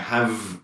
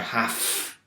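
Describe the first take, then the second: First: The word ends with a v sound. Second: The word ends with an f sound. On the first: It expresses possession. "have with a v for possession" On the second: It expresses obligation. "obligation is more have"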